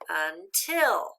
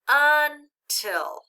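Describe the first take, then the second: First: The stress is on the second syllable. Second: The stress is on the first syllable. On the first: The speaker calls it right. "That sounds better" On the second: The speaker calls it wrong. "Does that sound right? Not quite"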